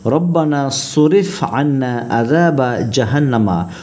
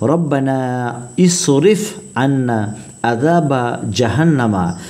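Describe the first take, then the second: First: The first two words are run together. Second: The first two words are said separately.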